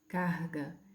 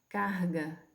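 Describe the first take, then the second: Both takes have the same delivery.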